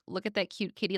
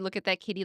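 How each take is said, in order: First: It sounds doting, like cooing at a pet cat. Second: It sounds plain, like describing a Digimon.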